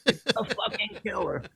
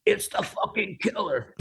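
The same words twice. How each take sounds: First: Higher, laughing through the words; laughing rocker quote. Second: Higher, slow, awed mock rocker voice; imitating a rock singer. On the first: Retold or imitated. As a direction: repeat it again while cracking up. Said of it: "the rocker goes". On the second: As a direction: breathe it out like a starstruck rocker. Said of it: "he whispered in my ear".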